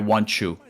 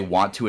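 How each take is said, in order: First: The t is said like a 'ch' sound. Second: The t is said as a clear stop. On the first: "T's are pronounced like C H's" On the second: "when you say want to"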